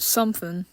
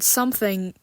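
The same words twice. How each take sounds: First: The word ends without the final g sound. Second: The word ends with a full ng sound. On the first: "to something" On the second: "I shortened the word something"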